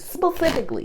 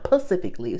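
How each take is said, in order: First: The word begins with an sp sound. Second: The word begins with a p sound. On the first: The speaker calls it right. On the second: The speaker calls it wrong.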